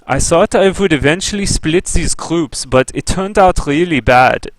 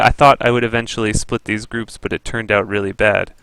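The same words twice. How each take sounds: First: It is said with a German accent. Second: It is said with an American accent.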